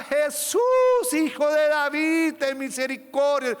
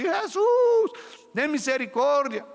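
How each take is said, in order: First: Loud, high cry for mercy, stretched out; desperate shout. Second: Mock loud, high cry of the name; imitated shout. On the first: Acted. Blind Bartimeo calling out to Jesus, desperate loud shout. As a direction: cry out to him across the crowd. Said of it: "Él gritaba". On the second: The crowd mocking the blind man's cry, loud imitated shout. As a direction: ham up the embarrassing yell. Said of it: "gritando así".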